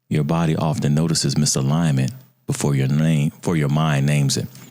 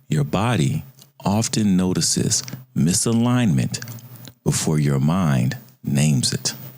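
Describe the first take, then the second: First: The sentence is said at a normal, quicker pace. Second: The sentence is said at a slower pace.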